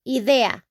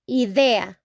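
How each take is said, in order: First: The word is pronounced with Spanish sounds. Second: The same.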